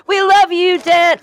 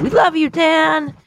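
First: High, loud cheering call; mock crowd cheer. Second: High, slow cheer; mock chorus cheer. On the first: Leading listeners to cheer for Dan, loud high cheer. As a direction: shout it like a whole crowd. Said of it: "Say it, remember?". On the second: Shown as a demonstration. Showing listeners the chant for Dan, high slow cheer. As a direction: lead the crowd in the line. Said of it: "I want you to say it with me".

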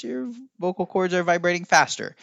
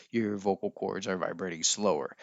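First: High voice. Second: Low voice. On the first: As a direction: lift into a high voice for the demo. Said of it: "If you talk in a high voice". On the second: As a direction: drop into a low, softer voice. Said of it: "If you're talking in a lower voice". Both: Shown as a demonstration.

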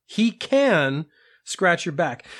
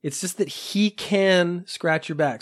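First: "can" stressed, slow and deliberate. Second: "can" stressed again, slowed down. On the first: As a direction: lean on the word "can". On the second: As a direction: hit "can" firmly, unhurried. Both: Shown as a demonstration. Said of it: "There isn't any implication that he will".

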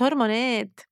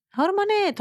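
First: Said in the usual way. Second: Very high dramatic cry of the word. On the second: Real, not acted. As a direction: hurl the word up in exasperation. (صرخة درامية عالية جداً)

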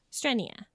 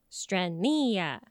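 First: Said in the usual way. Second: Strenia drawn out, every syllable stressed; "Strenia" slowly, syllable by syllable; emphasis on every syllable. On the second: Shown as a demonstration. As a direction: stretch Strenia into stren-NEE-a, each part weighted. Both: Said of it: "emphasis on everything".

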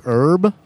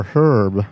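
First: "Herb" with the H left off; silent H option. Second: "Herb" with a clearly breathed H; sounded H option. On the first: Puzzling over a written name, first option "Herb" without its H. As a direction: say "Herb" as URB. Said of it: "You see the name and you're like". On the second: Puzzling over a written name, second option "Herb" with the H sounded. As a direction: say "Herb" as HURB. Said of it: "it's a tough call". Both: Shown as a demonstration.

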